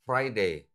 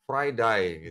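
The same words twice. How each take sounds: First: It is said in a European English accent. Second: It is said in an Australian English accent. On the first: "kalau misalnya orang Eropa misalnya, mereka bicara Friday" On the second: "Tapi kalau di Australia apa? Friday gitu"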